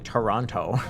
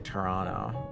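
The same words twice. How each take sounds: First: The last T is clearly pronounced. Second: The last T is dropped. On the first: This is how an American usually says it. The speaker calls it wrong. "they say Toronto" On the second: This is how it is supposed to be said. The speaker calls it right. "you're supposed to say Toronto"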